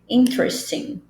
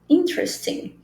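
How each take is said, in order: First: The vowel is dropped, linking t and r. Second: The same.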